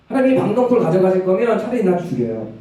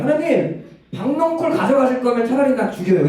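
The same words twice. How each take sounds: First: Said in the usual way. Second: High-pitched hot-tempered complaint; acted outburst, whining up at God; worked-up anger. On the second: Preacher voicing Jonah protesting to God over the gourd, worked-up anger. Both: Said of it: "막 열받아서 하나님한테 얘기해요".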